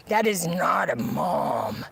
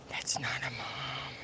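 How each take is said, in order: First: Said in the usual way. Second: "That's not a mom" breathed out as a soft whisper. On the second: Real, not acted. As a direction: whisper it, drained. Repeated denial, fading to whisper.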